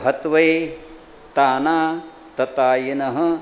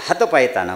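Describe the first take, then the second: First: It is said in three separate chunks with pauses. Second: It is run together in one slurred go. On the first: The speaker calls it right. "असे तीन तुकडे केले की व्यवस्थित म्हणू लागलो" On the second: The speaker calls it wrong. "सगळे तिन्ही मिळून एकदाच म्हणलं की"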